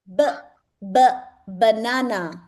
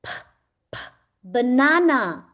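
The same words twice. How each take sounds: First: "B, b" with a voiced lip b, then "banana"; B sound then banana. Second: "P, p" with a puffed unvoiced p, then "banana"; P sound then banana. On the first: ("B, b" को होंठों से बोलकर, फिर "banana") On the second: ("P, p" को फूँक वाली आवाज़ में, फिर "banana") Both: Shown as a demonstration. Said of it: "say after me".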